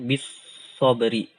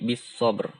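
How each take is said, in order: First: The word ends with an i vowel. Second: The word ends on a bare r consonant. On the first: The speaker calls it wrong. "Bukan bisobri" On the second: The speaker calls it right. "tapi bisobr"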